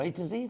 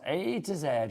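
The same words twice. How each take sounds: First: The last letter is said as American zee. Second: The last letter is said as British zed.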